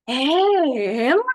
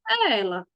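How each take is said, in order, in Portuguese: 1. É dito como uma pergunta espantada, exclamando. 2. É dito deixando no ar, sem terminar a frase. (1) "Eu vou perguntar e exclamar ao mesmo tempo" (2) "E se eu for usar com reticências"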